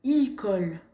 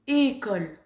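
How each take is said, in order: First: École said as icole, with i; wrong vowel demo. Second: École with a closed é, not i; correct école. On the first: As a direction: show the common mistake icole. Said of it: "J'entends beaucoup de gens qui disent". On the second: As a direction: model the right école. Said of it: "Mais non, c'est pas «icole»". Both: Shown as a demonstration.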